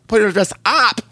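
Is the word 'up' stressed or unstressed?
stressed. The word up is strongly stressed.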